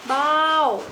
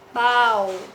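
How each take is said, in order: First: The pitch starts high and falls. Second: The pitch stays level in the middle. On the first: "Dengan nada jatuh" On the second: "Bau dengan nada datar"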